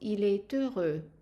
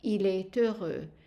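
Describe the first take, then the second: First: The T links into the next word. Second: The same.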